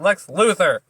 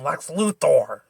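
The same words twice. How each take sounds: First: The last syllable is said with an 'er' sound. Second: The last syllable is said with an 'or' sound. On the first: The speaker calls it right. "Just say er" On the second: The speaker calls it wrong. "makes an or sound"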